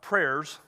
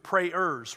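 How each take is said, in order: First: The word is said as one syllable. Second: The word is said as two syllables. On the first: It means spoken requests to God. "Not prayers, we need that too" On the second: It means people who pray. "but prayers"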